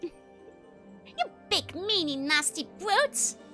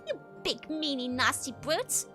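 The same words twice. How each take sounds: First: The word brute gets strong extra stress. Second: The word brute gets no extra stress.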